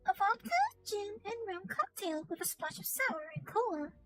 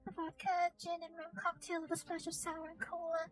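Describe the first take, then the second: First: It is read with lively, emotional expression. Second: It is read in a flat, plain manner. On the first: The speaker calls it right. "but if I say it like this" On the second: The speaker calls it wrong. "as opposed to just reading it more straight"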